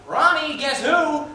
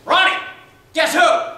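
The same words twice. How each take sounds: First: High loud call across the house. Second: High, even louder shout; louder call. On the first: Father calling his son to greet the guest, loud. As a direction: call out to the kid, excited. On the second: Father calling his son a second time, louder shout. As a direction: call again, bigger and more insistent. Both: Retold or imitated. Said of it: "my father called out".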